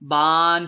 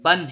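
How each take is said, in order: First: The vowel is drawn out long. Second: The vowel is kept short. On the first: The speaker calls it wrong. "ऐसा ना हो कि बा दो जबर बन पढ़ते वक्त बान हो जाए" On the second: The speaker calls it right. "बल्कि बा दो जबर बन ही पढ़ें"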